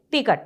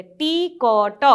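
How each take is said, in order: First: "टिकट" said quickly as one word; snappy "टिकट" with a short i; short vowel. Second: "टी क ट" slowly stretched, sound by sound; drawn-out syllables. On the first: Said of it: "इसको बोलेंगे". ("टिकट" झट से, बिना खींचे) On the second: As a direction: pull "टी क ट" apart into three long sounds. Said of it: "पूरा खींच कर नहीं बोलेंगे". ("टी क ट" खींच-खींच कर, अलग-अलग) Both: Shown as a demonstration.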